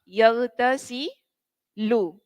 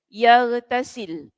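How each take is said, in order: First: The word ends with a short 'u' vowel. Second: The word ends on a bare 'l' sound. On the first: "huruf lamnya dibaca dhamma" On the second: "Baca jazam maknanya kita matikan"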